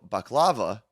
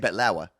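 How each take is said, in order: First: The word is said with a K sound. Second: The word is said with a T sound.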